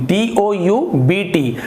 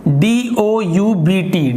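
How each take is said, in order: The two takes are said the same way.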